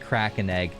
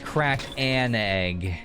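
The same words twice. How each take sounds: First: The words are run together without breaks. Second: The words are said separately with clear breaks. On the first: "I did say it that way" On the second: "I just didn't, you know, separate the syllables"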